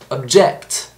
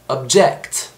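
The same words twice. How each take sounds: First: The stress is on the second syllable. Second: The same.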